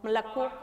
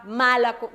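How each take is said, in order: First: Malacó with a reduced start, rising to CÓ; softer Malacó climbing onto the last syllable; final-syllable stress. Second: Malacó stressed MA-la-co; Malacó with the accent wrongly up front; wrong first-syllable stress. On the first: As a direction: swallow the first A, lift the end of Malacó. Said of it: "cómo la palabra como sube". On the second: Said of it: "hice una acentuación en la primera A". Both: Shown as a demonstration.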